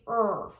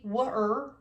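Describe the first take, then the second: First: Only an R sound is heard. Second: A W sound is heard before the R. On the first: The speaker calls it right. "We just say er" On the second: The speaker calls it wrong. "we don't say w-er"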